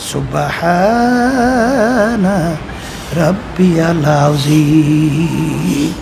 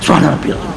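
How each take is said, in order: First: The phrase is stretched out slowly. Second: The phrase is rushed and mumbled quickly. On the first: It is said carefully when others are listening. The speaker calls it right. "টানতে টানতে" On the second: It is said carelessly when praying alone. The speaker calls it wrong. "মানে কি পড়ছো পড়ছো কি?"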